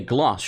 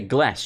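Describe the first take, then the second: First: The vowel is a long broad ah. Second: The vowel is a short flat a. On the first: The speaker calls it right. "You say gloss. You're British" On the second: The speaker calls it wrong. "Why would you say glass?"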